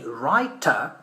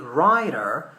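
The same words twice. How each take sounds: First: It is said with a British accent. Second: It is said with an American accent.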